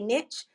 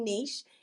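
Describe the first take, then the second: First: It is said with an American pronunciation. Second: It is said with a British pronunciation.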